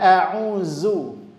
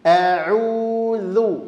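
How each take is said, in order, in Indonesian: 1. Bunyi z dibuat dengan ujung lidah tetap di dalam. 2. Bunyi z dibuat dengan ujung lidah dikeluarkan. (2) "makhrajnya ujung lidah dikeluarkan"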